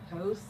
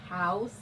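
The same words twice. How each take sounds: First: The vowel sounds close to the 'o' in 'no'. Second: The vowel is the usual 'ow' sound. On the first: "They say almost with the no, like house" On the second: "They don't say house"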